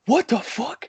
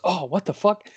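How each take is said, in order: First: High-pitched mock yell; retold yell, pitched very high without much volume; Jeff Jarrett. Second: Imitated startled exclamation, higher pitch; mock startled outburst, raised pitch; Phil. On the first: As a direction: imitate someone yelling into the night, voice way up. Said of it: "Jeff Jarrett just yells". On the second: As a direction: blurt it out as a retold startled reaction. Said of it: "Phil goes".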